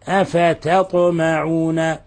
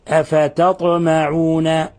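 Both takes have the same delivery.

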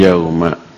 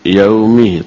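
First: The word ends in an a vowel. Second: The word ends in an i vowel. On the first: The speaker calls it right. "tapi yauma" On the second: The speaker calls it wrong. "bukan yaumu atau yaumi"

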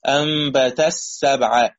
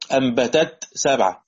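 First: The t is merged into the following s. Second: The t is pronounced separately before the s.

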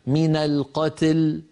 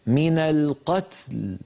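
First: The t leans toward an i vowel. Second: The t and l both stay vowelless. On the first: The speaker calls it wrong. "جعلنا التاء قد مالت إلى الكسر وهذا لا يصح" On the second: The speaker calls it right. "لابد أن نبقي التاء ساكنة واللام ساكنة"

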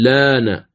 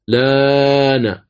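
First: The first vowel is held short. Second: The first vowel is held medium length. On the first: "تمد بالأوجه 3" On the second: "تمد بالأوجه 3"

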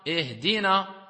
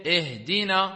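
No difference in how they are said.

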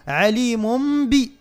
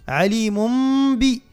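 No difference in how they are said.

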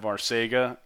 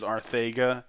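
First: The middle consonant is an 's' sound. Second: The middle consonant is a 'th' sound. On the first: This is the older, familiar pronunciation. "instead of Arcega" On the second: This is the newer pronunciation the player adopted. "we started to have to pronounce it as Arthega"

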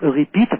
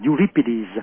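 First: The name is pronounced the French way. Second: The name is pronounced the English way. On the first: "tiếng Pháp đọc là Euripides" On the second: "tiếng Anh là Euripides"

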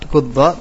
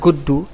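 First: The word ends in an a vowel. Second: The word ends in a u vowel. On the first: "Hurikat fil fathi lil tilqa sakinain" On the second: "Hurikat fidomi juga lil tilqa sakinain"

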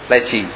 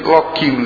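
First: The first vowel sounds like 'e'. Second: The first vowel sounds like 'o'. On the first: The speaker calls it right. "dibaca legging" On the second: The speaker calls it wrong. "Ini logging"

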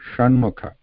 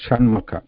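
First: The first sound is a retroflex 'sh'. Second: The first sound is a palatal 'sh'. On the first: The speaker calls it right. "when we use Shanmukha, we use this sound, second one" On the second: The speaker calls it wrong. "Not Shanmukha"

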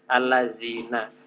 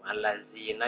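First: The middle consonant is a voiced th sound. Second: The middle consonant is a plain z sound. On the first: The speaker calls it right. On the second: The speaker calls it wrong.

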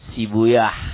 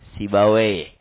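First: The name ends in a 'yah' sound. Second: The name ends in a 'wayh' sound. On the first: This is the reading used by hadith scholars. "Kalau ahli hadis biasanya membacanya dengan Sibuyah" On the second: This is the reading used by language scholars. "Sibawai itu biasanya ahli lughah"

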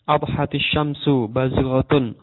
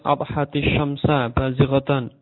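First: The endings are -u and -un. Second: The endings are -a and -an. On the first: The predicate is wrongly put in the nominative case. "salah, keliru" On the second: The subject is wrongly put in the accusative case. "ini juga salah, juga keliru"

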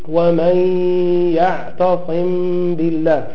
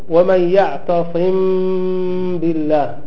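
The two takes are said the same way.

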